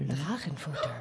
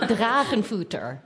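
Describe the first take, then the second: First: The word is said at a softer volume. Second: The word is said at a louder volume.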